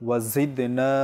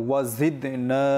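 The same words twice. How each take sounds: No difference in how they are said.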